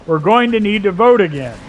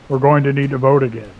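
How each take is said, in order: First: It is said in a normal voice. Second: It is said in a cybernetic RoboCop voice.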